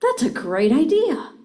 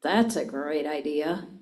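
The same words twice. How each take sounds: First: Bright, high and loud, truly excited; enthusiastic. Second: Low, dry and sarcastic. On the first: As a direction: sell the idea with real enthusiasm. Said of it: "I can say". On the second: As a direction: say it as if the idea is dumb. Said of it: "Or I can say". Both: Shown as a demonstration.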